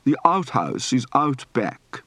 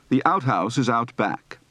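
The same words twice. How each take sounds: First: Slow "outhouse", ow opened from a back ah; deliberate, drawn-out ow in "outhouse"; British ow diphthong. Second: Said in the usual way. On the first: Shown as a demonstration. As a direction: stretch "out" as ah-oot. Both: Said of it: "Practice for the ow diphthong".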